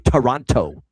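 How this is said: The second t is clearly pronounced. "they even enunciate the second T even louder, most Americans. They say Toronto like that"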